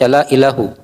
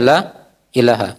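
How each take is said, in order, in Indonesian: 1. Kata terakhir berakhir dengan vokal 'u'. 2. Kata terakhir berakhir dengan vokal 'a'. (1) "bukan dibaca la ilahu" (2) "tapi dibaca la ilaha"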